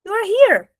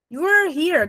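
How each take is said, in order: First: You are HERE pitched high; high bright demo of You are here; here emphasized. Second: You WERE here said high; linked You were here; were emphasized. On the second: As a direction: press on were. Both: Shown as a demonstration. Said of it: "Tá vendo como eles juntam".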